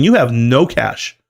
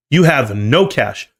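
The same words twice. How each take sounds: First: Said in the usual way. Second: "you have no cash" said slowly, each word weighed; slow emphatic repeat. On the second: Real, not acted. Investor driving home Kohl's empty cash to viewers, slow and emphatic. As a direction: drag out "no cash" to hammer it home.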